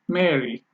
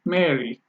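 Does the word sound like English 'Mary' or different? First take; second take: English 'Mary'; English 'Mary'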